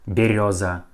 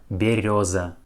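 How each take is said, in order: No difference in how they are said.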